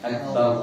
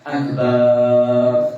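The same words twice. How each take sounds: First: The vowel after the b is kept short. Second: The vowel after the b is drawn out long. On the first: It means greatest. The speaker calls it right. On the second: It means a drum. The speaker calls it wrong. "membaca panjang ba lafaz akbar"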